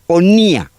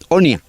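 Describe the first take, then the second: First: The stress falls on the i syllable. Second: The stress falls on the o syllable. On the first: The speaker calls it wrong. "No Onía, no" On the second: The speaker calls it right.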